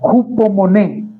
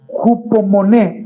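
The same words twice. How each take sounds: First: The stress is on the final syllable. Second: The stress is not on the final syllable. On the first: The speaker calls it right. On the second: The speaker calls it wrong.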